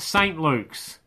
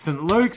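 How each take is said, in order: First: Saint is said in full with its vowel. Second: Saint is cut short, its vowel dropped. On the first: The speaker calls it wrong. "it's not Saint Luke's" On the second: The speaker calls it right. "It's Saint Luke's"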